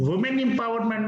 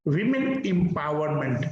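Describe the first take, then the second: First: "women" misread as wumen in "women empowerment"; wrong singular. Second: "women" as wimin in a slow "women empowerment"; correct plural. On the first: Teacher shows the common mistake, wrong singular. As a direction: say "women empowerment" with a "wu" start, quicker. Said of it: "but that is wrong". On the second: Teacher repeats the right phrase, correct plural. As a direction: say "women empowerment" measured, starting "wi". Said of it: "Speak always women empowerment". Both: Shown as a demonstration.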